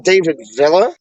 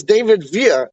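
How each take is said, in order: First: Villa said VIL-uh, the double L as an L; wrong Villa. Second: Villa said VEE-yah, the double L as a Y; proper Villa. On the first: Mocking people who get the footballer's name wrong, saying VIL-uh. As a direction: stress VIL in Villa and sound the L. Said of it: "It's David Villa". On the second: Correcting a friend on the footballer's name, saying VEE-yah. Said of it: "It's not David Villa". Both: Shown as a demonstration.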